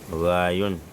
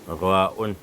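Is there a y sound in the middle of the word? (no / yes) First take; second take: yes; no. First: A y sound is inserted before the ending. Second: No y sound is inserted before the ending. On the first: The speaker calls it wrong. "Avec le Y, c'est faux" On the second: The speaker calls it right. "Il faut effacer le Y"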